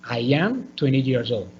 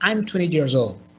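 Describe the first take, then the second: First: I am is said as two full words. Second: I am is contracted to one syllable. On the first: "En vez de decir" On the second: "it's going to be shorter and you can speak faster"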